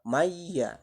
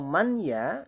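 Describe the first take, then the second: First: The n merges into the following y sound. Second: The n is pronounced clearly before the y. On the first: The speaker calls it right. "yang betul itu adalah bacaannya maya. Jadi huruf nunnya seolah-olah lebur" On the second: The speaker calls it wrong. "Kalau man ya nanti itu termasuk kategori izhar"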